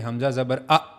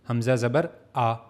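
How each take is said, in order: First: The final vowel is cut off abruptly. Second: The final vowel is short and soft. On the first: The speaker calls it wrong. "इस तरह झटका नहीं देना" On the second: The speaker calls it right. "इसको अपने short पढ़ना है"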